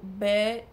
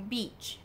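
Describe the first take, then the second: First: The vowel is a shorter, 'eh'-like sound. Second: The vowel is a clear long 'ee' sound. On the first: It turns into a different, rude word. The speaker calls it wrong. "se você fala com som de E" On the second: It means a sandy shore by the sea. The speaker calls it right. "é bem com som de I mesmo"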